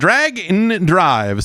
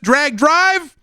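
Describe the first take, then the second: First: The X is spoken as 'and' between words. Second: The X is silent between the two words. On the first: The speaker calls it right. "seems like it should be the the right way" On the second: The speaker calls it wrong. "is it just Drag Drive? That seems weird"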